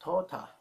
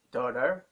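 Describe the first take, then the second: First: "tota" for daughter, ending on an open "ah"; dropped R. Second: "daughter" with a clear final R; R pronounced. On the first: Teacher showing English without the letter R, dropped R. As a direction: say "tota" with no final R. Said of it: "you don't pronounce the letter R". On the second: Teacher comparing English pronunciations for learners, R pronounced. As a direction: sound the R ending "daughter". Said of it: "When you say in English". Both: Shown as a demonstration.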